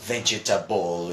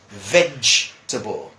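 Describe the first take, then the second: First: The word is drawn out with every syllable pronounced. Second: The word is said short with fewer syllables. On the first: The speaker calls it wrong. "Looks big, looks long, and then people say vegetable" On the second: The speaker calls it right. "it's smaller, it's uh, easier to handle"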